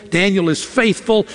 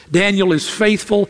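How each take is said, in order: Both takes have the same delivery.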